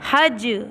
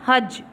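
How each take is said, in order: First: The final j is released with a slight bounce. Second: The final j stops flat with no bounce. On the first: The speaker calls it right. "इस पे कलकला करना है। कलकला का मतलब इसमें हरकत पैदा करनी है।" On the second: The speaker calls it wrong. "इसको ऐसे नहीं पढ़ना हज, नहीं, ये गलत हो जाएगा।"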